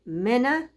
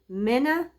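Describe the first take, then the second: First: The vowel after m is lazily reduced. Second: The same.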